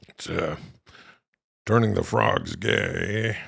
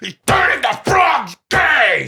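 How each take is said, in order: First: It is said in a soft, romantic tone. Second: It is said in an enraged, shouting tone.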